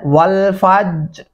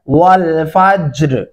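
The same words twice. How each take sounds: First: The j sound is plain, without an echoing bounce. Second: The j sound is released with an echoing bounce. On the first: The speaker calls it wrong. "ऐसे नहीं करना" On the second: The speaker calls it right. "जीम के ऊपर आपने कलकला करना है"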